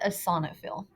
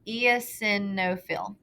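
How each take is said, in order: First: It is said in its usual spoken pronunciation. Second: It is sounded out closely following its spelling. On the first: The speaker calls it right. "but you pronounce it" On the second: The speaker calls it wrong. "If you read it the way it's spelled"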